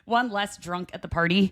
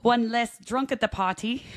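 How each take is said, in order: First: Said in the usual way. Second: A hammed-up, badly faked Irish brogue; a lightly put-on stage Irish voice; terrible Irish accent. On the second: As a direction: deliver the punchline in a bad mock Irish accent. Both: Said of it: "That's a terrible accent".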